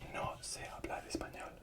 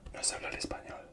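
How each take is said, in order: First: The words are said separately, slowly. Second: The words run together quickly.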